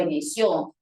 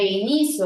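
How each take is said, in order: First: "inició" with the stress on final CIÓ; i-ni-CIÓ, accent at the end; stress on last syllable. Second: "inicio" with the stress on NI; i-NI-cio, accent before the ending; stress on middle syllable. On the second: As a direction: lean on NI in "inicio". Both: Shown as a demonstration. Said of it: "Yo puedo cambiar de".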